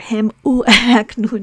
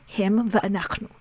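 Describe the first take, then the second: First: The word 'and' is pronounced 'u'. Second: The word 'and' is pronounced 'va'. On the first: The speaker calls it wrong. "or him u'anachnu, no" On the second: The speaker calls it right. "we pronounce the conjunctive vav as va"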